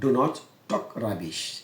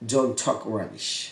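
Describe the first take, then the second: First: Do not is said as two full words. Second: Do not is contracted into one syllable, don't.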